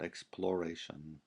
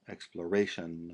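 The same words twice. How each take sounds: First: The stress falls on a different syllable. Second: The stress falls on the 'ra' syllable. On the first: The speaker calls it wrong. "not exploration" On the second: The speaker calls it right. "always accent the A of exploration in English"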